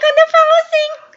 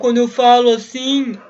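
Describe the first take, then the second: First: The voice is high and thin. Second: The voice is deep and low-pitched.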